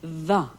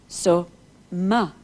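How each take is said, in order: First: The word begins with a v sound. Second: The word begins with an m sound. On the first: "when it aspirates, the m becomes v" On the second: "If you take the letter M at the beginning of the word ma"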